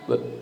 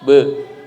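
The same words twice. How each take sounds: First: The b sound is released faintly and weakly. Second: The b sound is released clearly and strongly. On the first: The speaker calls it wrong. "bukan be" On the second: The speaker calls it right. "Maka qalqalah pun bunyinya be"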